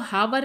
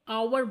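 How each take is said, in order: First: The word starts with an h sound. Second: The word starts with a vowel sound. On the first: The speaker calls it wrong. "इसको आपको हावर नहीं बोलना है" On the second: The speaker calls it right. "यहाँ पे H को silent रखिए, आवर बोलना है"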